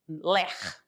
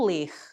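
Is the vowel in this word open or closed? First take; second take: open; closed. First: The vowel is open, like 'lé'. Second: The vowel is closed, like 'lê'. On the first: It names the acronym for repetitive strain injuries. The speaker calls it right. "a pronúncia seria ler, lesões por esforços repetitivos" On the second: It is the verb meaning to read. The speaker calls it wrong. "não ler"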